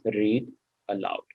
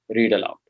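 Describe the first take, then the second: First: There is a pause between the two words. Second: The two words run together without a pause. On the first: The speaker calls it wrong. "I would never say it as read aloud. That will be wrong" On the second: The speaker calls it right. "I say it in one flow"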